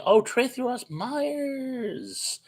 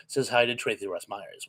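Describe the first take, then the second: First: Drawn-out high delighted greeting; long, high happy call to a viewer; excited blurt. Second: Said in the usual way. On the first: Real, not acted. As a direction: blurt her name out with joy. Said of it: "what I was doing when I blurted that out". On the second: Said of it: "which is what I was doing".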